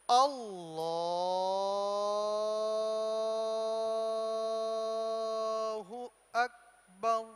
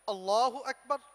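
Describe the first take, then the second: First: It is said slowly. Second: It is said fast.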